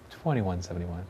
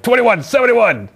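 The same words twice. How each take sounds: First: It is said in a calm, peaceful way. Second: It is said in a harsh, unpeaceful way. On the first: "it sounds peaceful" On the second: "That doesn't sound peaceful"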